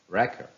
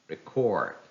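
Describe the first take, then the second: First: The stress is on the first syllable. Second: The stress is on the second syllable. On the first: It is used as a noun. "How will they sound if they are noun?" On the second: It is used as a verb. "If they are verbs, the second part of the word takes the stress"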